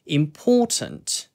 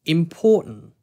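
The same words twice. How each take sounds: First: The t sound is clearly pronounced. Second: The t sound is dropped. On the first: "영국식으로 우리가 T 발음 살려가지고" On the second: "T가 먹히는 발음이 돼서"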